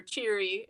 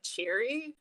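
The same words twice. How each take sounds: First: Said in the usual way. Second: "Cheery?" softer with a rising questioning end; puzzled echo. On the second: Retold or imitated. Imitating him puzzled by the word, "Cheery?" rising softly. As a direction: repeat "Cheery?" like an unknown foreign word. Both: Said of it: "Like a foreign word".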